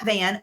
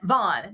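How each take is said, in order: First: The vowel sounds like the one in 'cat'. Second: The vowel sounds like the one in 'dawn'. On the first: The speaker calls it wrong. "not Van" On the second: The speaker calls it right.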